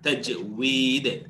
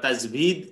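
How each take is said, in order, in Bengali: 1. মাঝের ব্যঞ্জনবর্ণটি w ধ্বনি। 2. মাঝের ব্যঞ্জনবর্ণটি v ধ্বনি। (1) "এটা একটা ইউনিক উচ্চারণ।" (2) "অনেকে বলেন বা লিখেছেন অনেক জায়গায়, কিন্তু এটা ঠিক না।"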